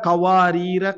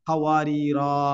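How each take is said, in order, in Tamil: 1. இறுதி உயிர் குறில், அடுத்த சொல்லோடு சேர்த்து ஓதப்படும். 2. இறுதி உயிர் நெடில், வாக்கியத்தை முடிக்கிறது. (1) "சேர்த்து ஓதுனீங்கன்னா" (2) "நம்ம நிறுத்துறதாக இருந்தா"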